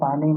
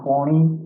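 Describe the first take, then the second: First: The first vowel is an open 'aa' sound. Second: The first vowel is a rounded 'au' sound. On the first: This is the standard Hindi form. "हम हिंदी में पानी बोलते हैं" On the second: This is the regional North Gujarat form. "उत्तर गुजरात में ... वहाँ पौनी ऐसा बोलते हैं"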